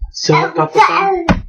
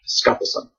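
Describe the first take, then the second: First: A clear u vowel follows the first s. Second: No vowel follows the first s. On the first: The speaker calls it wrong. "most Americans would probably see the U and be like su" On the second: The speaker calls it right. "I guess the U is silent"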